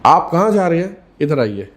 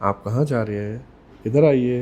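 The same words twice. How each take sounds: First: Sharp tone. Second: Toned-down, polite request to come over. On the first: Speaker shows how tone changes meaning, sharp loud summons. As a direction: order someone over in a sharp, raised voice. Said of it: "बात के मायने change हो जाते हैं". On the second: Same words with the tone lowered for politeness, polite and low. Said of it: "जैसी tone change करी". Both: Shown as a demonstration.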